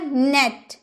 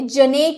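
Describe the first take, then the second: First: The word begins directly with the n. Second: A consonant sound comes before the n. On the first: The speaker calls it right. "आप बोलिएगा नेट" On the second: The speaker calls it wrong. "जनेट आप नहीं बोल सकते"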